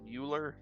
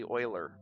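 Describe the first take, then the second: First: The name rhymes with Bueller. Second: The name does not rhyme with Bueller. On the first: The speaker calls it wrong. "which I've always called Euler, rhyme it with Ferris Bueller" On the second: The speaker calls it right. "it's technically Euler, apparently"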